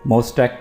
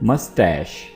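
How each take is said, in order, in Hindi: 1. इस शब्द का अंत k ध्वनि से होता है। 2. इस शब्द का अंत sh ध्वनि से होता है। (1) "कुछ लोग इसको मोस्टैक पढ़ते हैं" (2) "इसकी जो सही प्रोनंसिएशन है वो है मस्टैश"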